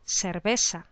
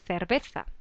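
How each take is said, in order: First: It is said with a Latin American s sound. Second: It is said with a Spanish th sound.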